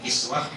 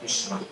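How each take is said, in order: First: The first vowel is an 'i' sound. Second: The first vowel is a 'u' sound. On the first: "bisa dibaca kiswah" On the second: "bisa dibaca kuswah"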